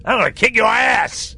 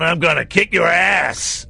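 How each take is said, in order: First: Mock American cop yell, pitched up; loud American accent. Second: Hammed-up American tough-guy threat, loud and slow; loud American accent. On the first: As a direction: shout it like a fake American FBI agent, in an American accent. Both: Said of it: "quite loudly in this stupid American accent".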